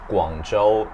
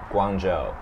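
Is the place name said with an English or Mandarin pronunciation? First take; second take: Mandarin; English. First: It is said with a Mandarin pronunciation. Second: It is said with an English pronunciation. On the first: The speaker calls it wrong. "I thought you said Guangzhou" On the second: The speaker calls it right. "instead of Guangzhou"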